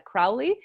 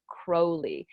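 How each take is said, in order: First: Crowley with first syllable rhyming with cow; assumed pronunciation. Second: Crowley with first syllable like the bird crow; correct pronunciation. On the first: Author gives her own guess at the name, Crowley rhyming with 'cow'. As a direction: say Crowley as CROW-lee, 'ow' as in cow. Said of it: "which I would have pronounced as". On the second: Author explains how his name is really said, Crowley with long o. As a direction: say Crowley as KROH-lee, long o. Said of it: "about his name being pronounced". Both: Shown as a demonstration.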